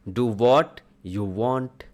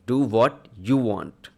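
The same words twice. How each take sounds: First: It sounds positive and encouraging. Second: It sounds annoyed and dismissive. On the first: The speaker freely gives permission. "इसे आप positive तरीके से भी बोल सकते हैं" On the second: The listener is refusing to obey, so the speaker gives up. "जब आप किसी की बात नहीं मानते हैं, उस केस में आपको ऐसे बोला जाता है"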